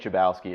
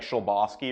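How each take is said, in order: First: The name has an Americanized pronunciation. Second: The name has its original-style pronunciation. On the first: This is how the family says it in the States. The speaker calls it wrong. "we just we say Chabowski" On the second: This is how the name is supposed to sound. The speaker calls it right. "I think it's like supposed to be like Sholbowski"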